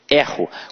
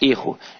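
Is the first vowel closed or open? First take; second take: open; closed. First: The first vowel is an open e. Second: The first vowel is a closed e. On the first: I make a mistake, the verb. "Observa que este E tem um som aberto" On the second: A mistake, the noun. "já não é mais erro"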